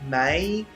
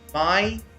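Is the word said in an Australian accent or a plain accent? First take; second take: plain; Australian. First: The word is said in a plain accent. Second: The word is said in an Australian accent.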